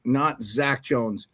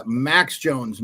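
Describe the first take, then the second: First: Not Zach Jones, slow and firm; stress on not. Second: Max said slow and firm; stress on Max. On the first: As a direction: hit the word not. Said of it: "Yeah, Max Jones, not". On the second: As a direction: lean on the name Max. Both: Shown as a demonstration.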